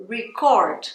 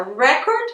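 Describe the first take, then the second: First: Record stressed on the second syllable, re-CORD, falling; verb stress. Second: Record stressed on the first syllable, REC-ord, with a rising end; noun stress. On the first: (record com tônica no final, ri-CÓRD) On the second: (record com tônica na primeira sílaba) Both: Shown as a demonstration. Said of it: "olha a diferença".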